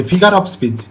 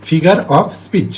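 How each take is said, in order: First: Said in the usual way. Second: "figure of speech" very slowly, word by word; slow, separated words. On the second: Shown as a demonstration. Teacher breaks down the term for students, slow and deliberate. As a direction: draw out "figure of speech" with gaps between words.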